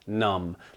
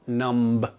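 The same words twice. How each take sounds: First: No b sound is pronounced at the end. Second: A b sound is pronounced at the end. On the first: The speaker calls it right. "it is numb" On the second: The speaker calls it wrong. "it is not numb"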